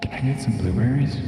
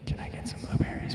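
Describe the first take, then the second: First: It is said in a normal speaking voice. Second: It is said in a quiet whisper.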